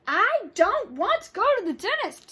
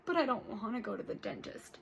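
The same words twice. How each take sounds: First: Higher, louder stubborn whine; much higher and louder sulky refusal; whiny refusal. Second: Lightly voiced old grandpa, softer; a hint of a grumbling grandpa. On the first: Acted. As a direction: dig in, whining no. Child refusing dentist. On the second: Grandpa refusing dentist.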